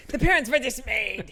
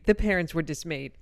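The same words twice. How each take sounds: First: Higher, louder, stress on parents; "The parents were dismayed" with weight on "parents"; dramatic reread. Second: Said in the usual way. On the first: Shown as a demonstration. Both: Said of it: "I'm sorry".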